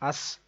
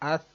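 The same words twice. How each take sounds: First: The consonant is a plain s sound. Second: The consonant is a soft th sound. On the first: The speaker calls it wrong. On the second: The speaker calls it right.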